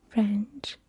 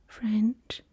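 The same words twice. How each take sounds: Both takes have the same delivery.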